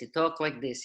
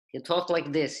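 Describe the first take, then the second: First: It is said in an imitated Russian accent. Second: It is said in the speaker's ordinary accent.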